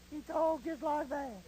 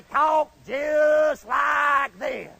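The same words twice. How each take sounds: First: Soft, slow, higher drawl; small high voice, words stretched out softly; imitated New Orleans recruit. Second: Very slow, loud, stretched-out drawl; imitated Irish drill instructor. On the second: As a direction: drag each word out loudly like a drill instructor. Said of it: "he talked just like this".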